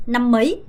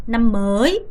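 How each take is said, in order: First: "năm mới" with "mới" shortened, like mấy; brief "năm mới", fast rise on the last word; short-vowel reading. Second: "năm mới" with "mới" drawn out; slow "năm mới", late rise on "mới"; long-vowel reading. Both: Shown as a demonstration. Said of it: "정확하게 구분하셔야 됩니다".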